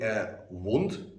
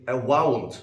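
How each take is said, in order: First: Said in the usual way. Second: "wound" stretched into two syllables; two-syllable mispronunciation. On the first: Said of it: "that's correct". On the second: Shown as a demonstration. Teacher showing a common mistake, "wound" in two syllables. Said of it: "wound with two syllables is wrong".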